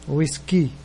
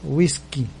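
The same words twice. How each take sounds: No difference in how they are said.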